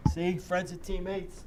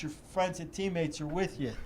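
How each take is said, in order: First: Slow, deliberate "friends and teammates" with weight on "friends"; stress on friends and teammates. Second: Said in the usual way. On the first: Shown as a demonstration. Repeating his point to the host, slow stress on "friends and teammates". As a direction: lean into "friends and teammates" slowly.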